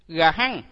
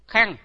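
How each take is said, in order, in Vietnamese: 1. Nó được tách chậm thành hai âm tiết rõ ràng. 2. Nó được đọc nhanh thành một âm tiết liền nhau. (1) "đúng ra là chúng ta đọc rõ chữ và chậm" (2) "nhưng mà chúng ta đọc là khăn"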